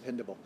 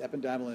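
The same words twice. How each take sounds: First: Ependymal stressed on PEN, eh-PEN-dih-mul; alternate pronunciation. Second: Ependymal with a long i, ep-en-DYE-mal; alternate pronunciation. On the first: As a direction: say ependymal with a short, weak i after "pen". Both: Shown as a demonstration. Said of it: "You'll hear it pronounced".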